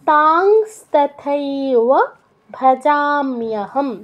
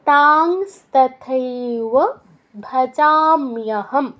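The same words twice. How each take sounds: The two takes are said the same way.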